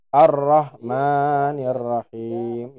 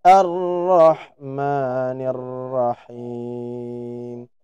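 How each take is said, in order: First: "Rahim" with the harsh H besar; slow chant, mistaken throaty H; wrong H. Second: Slow chant, light H; correct H. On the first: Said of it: "Contoh yang kurang tepat". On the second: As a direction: chant "Ar-Rahmanir Rahim" with a light breathy H. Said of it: "Yang insya Allah lebih tepat". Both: Shown as a demonstration.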